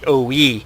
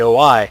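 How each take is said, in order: First: The name ends with an 'ee' sound. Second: The name ends with an 'eye' sound. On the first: This is the correct pronunciation. The speaker calls it right. "it's pronounced the O E" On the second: This is how players commonly say it. The speaker calls it wrong. "we all tend to call it the O I"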